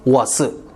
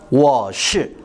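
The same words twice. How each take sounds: First: The 'sh' sound is a plain flat s. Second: The 'sh' sound is curled back, retroflex. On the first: The speaker is from Taiwan. "대만 사람은" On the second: The speaker is from Beijing. "북경이한테 시키면"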